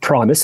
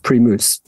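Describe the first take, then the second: First: It is said with an ordinary English pronunciation. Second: It is said with the local pronunciation. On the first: This is how outsiders would say it. The speaker calls it wrong. "we might pronounce it Primus" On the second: This is how people there say it. The speaker calls it right. "It's pronounced Primus. ... You have to pronounce it locally"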